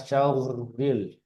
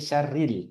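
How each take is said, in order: First: The r is thick, with a w-like sound. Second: The r is thin and light, like ri. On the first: The speaker calls it wrong. "Jadi bukan syauril" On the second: The speaker calls it right. "tapi syarril, ril, tipis"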